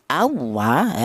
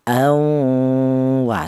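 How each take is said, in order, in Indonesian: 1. Dibaca cepat dengan hampir tanpa dengung hidung. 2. Dengung hidung ditahan selama dua ketukan. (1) "Kalau dibaca terlalu kecepatan ya" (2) "panjangnya dengung yaitu dua ketukan atau dua harokat"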